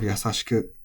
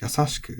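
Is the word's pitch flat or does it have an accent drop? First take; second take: flat; accent drop. First: The pitch stays flat with no accent drop. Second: The pitch rises then drops at an accent. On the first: This is the traditional, older pronunciation. "instead of" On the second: This is the newer, increasingly accepted pronunciation. "increasingly acceptable to, to be said as"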